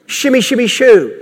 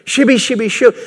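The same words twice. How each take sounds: First: Sing-song fake babble; mock tongues babble. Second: Mock tongues babble. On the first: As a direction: parody of made-up tongues. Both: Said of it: "to mimic".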